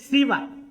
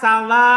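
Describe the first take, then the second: First: It starts with short i and ends short. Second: It starts with a and ends long with hamzah. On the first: "Fal masyhuru fiha kasrus sin. Dan terkenal di kasrus sinnya. ... Wal qasr" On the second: "memfathah sinnya ... Dia baca panjang. Pakai huruf hamzah di akhirnya"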